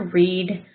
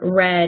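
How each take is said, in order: First: The vowel is long, like 'reed'. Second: The vowel is short, like 'red'. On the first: This is how the computer voice read it. The speaker calls it wrong. "you did hear read" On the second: This is the intended past participle. The speaker calls it right. "I really wanted to say"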